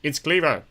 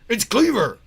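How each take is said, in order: First: It is said in an ordinary, non-gruff voice. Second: It is said in a gruff police voice.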